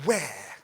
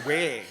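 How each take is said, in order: First: "where" with a breathy hw that blows the tissue; aspirated wh. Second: "where" as a plain w, no puff, laughing; "where" the home way, no puff of air; home pronunciation. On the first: Teacher makes the child say it with a breathy hw. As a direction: puff air on the wh of "where". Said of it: "the tissue blows when I say". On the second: Recalling how "where" was said at home, laughing. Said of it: "because where I come from". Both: Shown as a demonstration.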